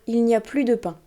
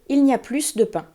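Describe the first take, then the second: First: The s at the end of plus is silent. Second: The s at the end of plus is pronounced. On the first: The speaker calls it right. "c'est une phrase toute somme classique" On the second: The speaker calls it wrong. "Parce qu'il y a un S à la fin du mot plus"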